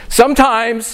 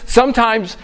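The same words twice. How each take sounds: The two takes are said the same way.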